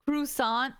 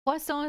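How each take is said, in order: First: Croissant mangled as "croo-SAHNT"; worst mispronunciation. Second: Croissant said the French way, "kwah-SOHN"; French pronunciation. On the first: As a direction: say croissant as "crew-sont", hard T at the end. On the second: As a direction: say croissant with silent final T and nasal ending. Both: Shown as a demonstration. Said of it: "it's the worst way I've heard it".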